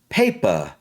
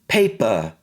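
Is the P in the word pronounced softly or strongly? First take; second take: strongly; strongly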